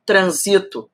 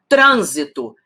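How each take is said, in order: First: Transito, stress on the second syllable SI; unaccented verb form. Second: Trânsito, stress on the first syllable TRÂN; accented noun. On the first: Teacher to exam students, transito stressed on SI. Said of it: "vira transito". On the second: Teacher to exam students, Trânsito stressed on TRÂN. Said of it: "Se eu tiro o acento". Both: Shown as a demonstration.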